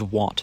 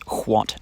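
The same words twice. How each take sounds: First: It starts with a plain 'w' sound. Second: It starts with a breathy 'hw' sound. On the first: At first only uneducated people said it this way. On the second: This is the older unmerged pronunciation.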